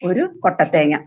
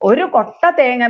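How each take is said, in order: First: The two words run together without a pause. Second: There is a short pause between the words. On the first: It means one dried coconut. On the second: It means a basket of coconuts.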